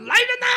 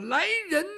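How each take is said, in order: First: Full-throated high shout for help; yell for guards. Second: A raised call for help, cut short; cut-off shout. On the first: Eunuch screaming for palace guards, loud high shout. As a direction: bellow at the top of your lungs. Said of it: "郭老五就扯嗓子喊". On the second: Eunuch starting to call the guards, shout cut short. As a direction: start a yell that gets choked off. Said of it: "他想喊来人呐". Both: Acted.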